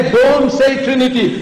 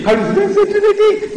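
First: Raised-pitch, firm order; firm, high warning; militant command. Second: Very high, squeaky weakling voice; mock chicken voice. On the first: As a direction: command it with a lion's conviction. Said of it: "When you tell somebody". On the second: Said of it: "that chicken voice". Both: Shown as a demonstration.

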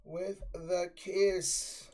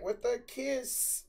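First: Said in the usual way. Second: "With the kiss" slow and higher, cracking on the words; mock voice crack. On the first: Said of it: "I can't say it". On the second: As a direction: mimic your own voice cracking on "kiss". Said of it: "I heard her voice crack".

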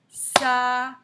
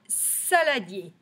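First: Saladier in three loud, separate beats; syllable by syllable. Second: Said in the usual way. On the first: Shown as a demonstration. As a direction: tap out SA, LA, DIER with gaps. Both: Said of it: "Trois syllabes".

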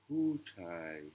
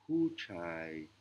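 First: "puchai" said a second time with a different timbre; repeated Thai demo. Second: "puchai" spoken carefully as the Thai word for man; a teacher modelling "puchai" for the class; Thai word demo. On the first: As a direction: repeat "puchai" so the students can copy it. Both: Shown as a demonstration. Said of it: "ce qui donne le mot".

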